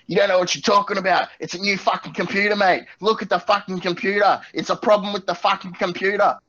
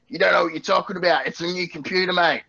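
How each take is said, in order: First: High, worked-up ranting farmer; farmer going crazy. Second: Higher, hurried farmer protesting; pig farmer customer. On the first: Pig farmer losing it at tech support, irate high rant. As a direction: rant as an irate customer, pitched way up. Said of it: "he's going crazy". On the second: Pig farmer on the phone to tech support, indignant. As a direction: put on an indignant farmer, pitched up. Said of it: "who was a pig farmer". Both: Acted.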